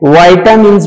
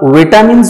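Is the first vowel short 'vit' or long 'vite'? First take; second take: long 'vite'; short 'vit'. First: The first syllable has a long 'ai' sound. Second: The first syllable has a short 'i' sound. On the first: "वाइटामिन्स भी पढ़ सकते हैं" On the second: "इनको आप विटामिन्स भी पढ़ सकते हैं"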